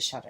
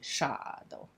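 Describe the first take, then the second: First: It is said with a plain English accent. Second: It is said with an Italian accent. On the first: This is the usual way of saying the name. "they don't say Shadow" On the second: This is how the Italian family says the dog's name. "they say Shadow"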